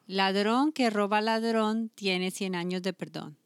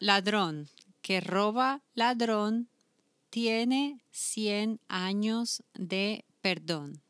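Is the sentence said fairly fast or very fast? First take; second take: very fast; fairly fast. First: It is said very fast. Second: It is said fairly fast.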